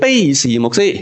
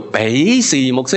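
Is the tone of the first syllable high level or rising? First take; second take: high level; rising. First: The first syllable has a high level tone. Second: The first syllable has a rising tone. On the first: The speaker calls it wrong. "真系好悲哀个卑啊" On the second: The speaker calls it right. "正確个读音系叫做比士牧师"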